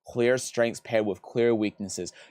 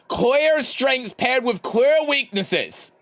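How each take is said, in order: First: It is read at a normal volume. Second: It is read noticeably louder.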